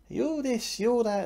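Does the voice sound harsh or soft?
harsh. The voice sounds harsh and critical. The inner voice feels like a painful trigger. The speaker calls it wrong. "So it doesn't have the same gritty trigger that maybe it did before"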